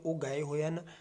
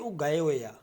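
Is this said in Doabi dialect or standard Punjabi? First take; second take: standard; Doabi. First: It ends with the full auxiliary 'han'. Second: It ends with a short 'aa' auxiliary. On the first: "ਟਕਸਾਲੀ ਦੇ ਵਿੱਚ ਇਸ ਤਰੀਕੇ ਨਾਲ ਲਿਖਿਆ ਹੋਇਆ" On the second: "ਦੁਆਬੇ ਵਾਲੇ ਕੀ ਕਹਿੰਦੇ ਨੇ"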